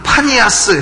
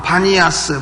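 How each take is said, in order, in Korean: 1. 이 이름은 p 소리로 시작합니다. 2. 이 이름은 b 소리로 시작합니다. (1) "파니아스 해보라 그러면" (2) "피 발음이 안 되는 사람들입니다"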